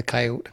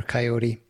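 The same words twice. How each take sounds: First: Coyote as KAI-oht; two-syllable coyote. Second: Coyote as kai-OH-tee; three-syllable coyote. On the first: Host names both forms for the animal, coyote as KAI-oht first. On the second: Host names both forms for the animal, coyote as kai-OH-tee second. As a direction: finish coyote on an "ee". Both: Shown as a demonstration. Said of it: "the coyote or coyote".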